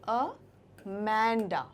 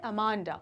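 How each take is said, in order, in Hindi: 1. बीच का स्वर आगे के 'eh' जैसा सुनाई देता है। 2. बीच का स्वर चौड़े 'ah' जैसा सुनाई देता है। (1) "करेक्ट प्रोनाउंसिएशन है इसका इंग्लिश में वो होगा अमेंडा, ठीक है, समथिंग लाइक दिस" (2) "हिंदी में बोलेंगे तो जो एक उच्चारण निकल कर आता है वो होता है अमांडा"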